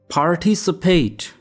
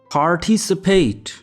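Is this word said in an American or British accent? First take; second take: American; American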